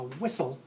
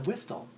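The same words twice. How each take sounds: First: The T sound is not pronounced. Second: The T sound is pronounced. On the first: The speaker calls it right. "this word with a silent T" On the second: The speaker calls it wrong. "as I call it, which is incorrect"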